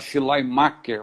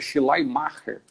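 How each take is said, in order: First: The name is said with Portuguese-style sounds. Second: The name is said with German-style sounds. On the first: This is how most people say it. "O pessoal fala Schleiermacher" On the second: This is how it is said in the original language. "minha filha está estudando alemão, falou que é Schleiermacher"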